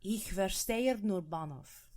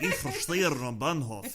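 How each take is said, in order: First: Slow German phrase with a slightly Russian accent; accidental Russian accent. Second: Slow, exaggerated Russian-accented German; mock Russian accent. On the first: Real, not acted. Co-host repeats the phrase on request, Russian-tinged accent. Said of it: "That sounded Russian". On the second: Host mimics co-host's slip, mock Russian accent. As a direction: tease with a thick Russian accent, half laughing. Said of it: "like, a nice little Russian accent".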